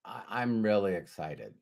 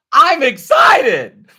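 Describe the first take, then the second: First: Unexcited delivery. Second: Loud, high, drawn-out excited shout. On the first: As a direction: mumble excitement with none in the voice. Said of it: "So you can say". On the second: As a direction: burst out with over-the-top excitement. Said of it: "Or you could say". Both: Shown as a demonstration.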